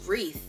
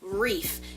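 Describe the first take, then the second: First: The word ends with a th sound. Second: The word ends with an f sound. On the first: The speaker calls it right. "that's not how you say it. It's wreath" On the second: The speaker calls it wrong. "I've been saying it all my life"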